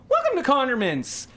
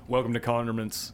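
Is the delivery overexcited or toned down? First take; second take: overexcited; toned down. First: It is said with excited, cracking energy. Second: It is said in a calmer, toned-down way.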